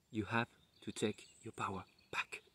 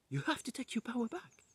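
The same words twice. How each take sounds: First: Quietly voiced neighbour, a little softer; soft quoted advice. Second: Much higher, softer echo of the neighbour's words; high echoed advice. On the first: Neighbour tells him to reclaim his power, softly. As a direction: say it gently, like a kind reminder. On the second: Retold or imitated. The neighbour's advice echoes back, high and soft. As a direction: lift it up high like an inner voice. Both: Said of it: "ma voisine qui me dit".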